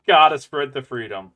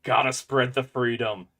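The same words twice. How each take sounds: First: Louder patriotic cheer. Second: Said in the usual way. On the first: Shown as a demonstration. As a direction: belt it out like a proud patriot. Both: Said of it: "repeats it louder".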